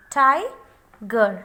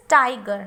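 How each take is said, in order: First: "tiger" broken as "tai... ger"; split into syllables. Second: Said in the usual way. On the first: Shown as a demonstration. Teacher letting learners check the syllables, "tiger" split as "tai... ger". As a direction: say "tiger" with a long gap after "tai". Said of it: "आपने check कर लिया". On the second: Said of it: "when we will pronounce it".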